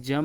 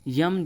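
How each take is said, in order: First: जम starting on J; J sound opening जम; incorrect pronunciation. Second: यम starting on Y; Y glide opening यम; correct pronunciation. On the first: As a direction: say जम as "jam". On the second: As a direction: say यम as "yam". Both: Shown as a demonstration. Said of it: "यम जो है शुद्ध रूप".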